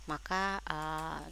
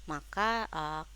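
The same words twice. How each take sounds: Both takes have the same delivery.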